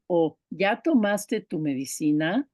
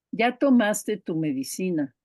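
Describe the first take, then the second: First: "o ya tomaste tu medicina" as a yes-no question, rising at the end; question tune. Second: "ya tomaste tu medicina" as a statement, falling at the end; statement tune. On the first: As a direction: ask it, pitch climbing on "medicina". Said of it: "Solo por la entonación sabemos que es una pregunta". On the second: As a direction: say it as a fact, pitch dropping on "medicina". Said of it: "la entonación es donde está la pregunta". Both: Shown as a demonstration.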